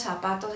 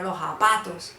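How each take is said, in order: First: Said in the usual way. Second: "zapatos" with J replacing the first sound; Cali-style "zapatos", lo japatos; Valluno J. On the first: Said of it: "No decimos zapatos". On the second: Shown as a demonstration. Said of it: "utilizar mucho la J".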